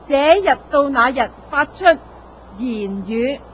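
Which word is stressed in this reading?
言语. The word 言语 is said with heavier stress.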